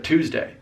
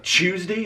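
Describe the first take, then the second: First: "Tuesday" as TOOZ-day; crisp T and full DAY in "Tuesday"; standard pronunciation. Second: "Tuesday" as CHOOZ-dee; Southern pronunciation. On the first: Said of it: "instead of Tuesday". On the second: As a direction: open "Tuesday" on CH. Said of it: "It's almost like Tuesday instead of". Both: Shown as a demonstration.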